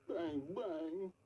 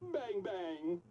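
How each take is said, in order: First: It is said in a sad tone. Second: It is said in a happy tone.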